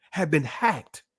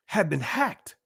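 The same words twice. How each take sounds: The two takes are said the same way.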